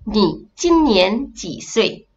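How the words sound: The syllables are read with Mandarin pronunciation. The speaker calls it right. "sebenarnya dalam Mandarin pronunciation dia"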